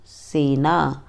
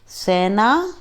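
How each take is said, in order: First: सेना with a closed e, "sena"; correct pronunciation. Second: सेना with an open e, "sæna"; wrong pronunciation. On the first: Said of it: "शुद्ध उच्चारण अलग तरीके से होता है". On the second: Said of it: "अशुद्ध उच्चारण अलग तरीके से होता है". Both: Shown as a demonstration.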